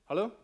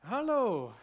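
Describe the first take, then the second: First: The greeting is said in a plain, ordinary way. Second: The greeting is said in a warm, friendly way. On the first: It is an ordinary, routine greeting. The speaker calls it wrong. "nicht einfach so «Hallo»" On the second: It covers up not remembering the person's name. The speaker calls it right. "ein bisschen freundlicher lächeln als sonst. Ein bisschen mehr Wärme"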